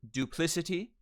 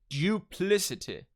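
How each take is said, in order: First: It is said in an American accent. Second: It is said in a British accent.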